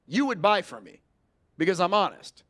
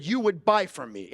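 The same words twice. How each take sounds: First: Firm, falling, sure of itself; certain statement. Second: Firm falling "You would buy from me."; certain statement. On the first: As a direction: tell her, don't ask. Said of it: "did I just speak with linguistic certainty". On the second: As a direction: state it, don't ask. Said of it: "I didn't ask her". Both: Shown as a demonstration.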